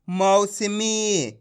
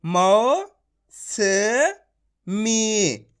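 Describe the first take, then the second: First: मौसमी joined into one slow word; blended syllables. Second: मौ, स, मी each held separately; syllable by syllable. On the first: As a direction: run मौ-स-मी together, very stretched. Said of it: "direct मात्रा का उच्चारण करके". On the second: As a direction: leave a gap after मौ and स, then मी. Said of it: "direct मात्रा का उच्चारण करके पढ़ेंगे". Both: Shown as a demonstration.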